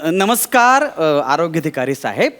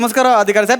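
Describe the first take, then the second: First: It is said very slowly with pauses. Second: It is said fast.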